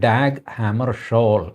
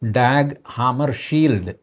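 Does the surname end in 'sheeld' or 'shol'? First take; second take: shol; sheeld. First: The surname ends with a 'shol' sound. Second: The surname ends with a 'sheeld' sound. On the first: This is how the name should be pronounced. The speaker calls it right. "അത് ഉച്ചരിക്കേണ്ടത് ഡാഗ് ഹാമർഷോൾ എന്നാണ്" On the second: This follows the spelling directly. The speaker calls it wrong. "അതിൻ്റെ spelling വെച്ച് നമ്മൾ നേരെ ഉച്ചരിച്ചു കഴിഞ്ഞാൽ"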